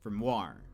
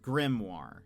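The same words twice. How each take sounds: First: The stress is on the second syllable. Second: The stress is on the first syllable. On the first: This is an Australian way of saying it. "his uh, accent is on Grimoire, which is also a very Australian thing" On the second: This is an American way of saying it. "the American pronunciation is grimoire, where the the emphasis is on the the first syllable"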